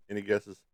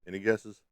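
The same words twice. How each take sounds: The two takes are said the same way.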